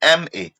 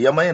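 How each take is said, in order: First: It begins with a clear 'em' sound, letters separate. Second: It begins with a 'ya' sound, blended together. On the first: The speaker calls it right. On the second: The speaker calls it wrong. "यमए नहीं"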